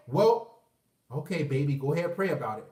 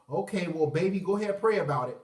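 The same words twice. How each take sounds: First: A hint of a calm churchy mom; mom's voice. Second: Mom's voice. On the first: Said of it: "She gonna say". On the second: Retold or imitated. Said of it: "you know what she gonna say".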